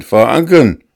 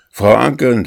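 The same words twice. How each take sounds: First: Even louder, higher repeat of the name, falling hard; louder call. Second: Loud call of the name, pitched up, falling at the end. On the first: Master calling the housekeeper a second time, louder and urgent. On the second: Master calling his housekeeper from the doorway, loud call. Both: A narrator's reading. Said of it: "rief er".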